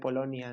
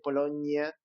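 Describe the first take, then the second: First: The n sounds plain, not like ñ. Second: The n sounds palatal, like ñ. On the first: The speaker calls it right. "en lugar de" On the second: The speaker calls it wrong. "mucha gente dice"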